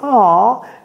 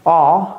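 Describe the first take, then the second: First: It sounds warm and pleased. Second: It sounds let down and deflated. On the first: The compliment is welcome. "ça dépend du contexte" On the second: The news is a letdown.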